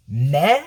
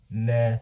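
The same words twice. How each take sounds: First: MEH swept upward as a question. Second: Low MEH, falling away; unimpressed meh. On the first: Villain echoes the verdict, rising questioning MEH. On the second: Villain judges the name, low unimpressed MEH. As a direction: drop MEH low with no lift. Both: Acted.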